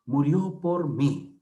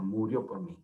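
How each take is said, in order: First: "Murió por mí" despacio, golpeando "mí"; ejemplo marcado, lento. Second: Said in the usual way. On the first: Shown as a demonstration. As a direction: leer "Murió por mí" con calma y peso en "mí". (ejemplo dictado lento, acento en "mí") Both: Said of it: "¿Se dan cuenta?".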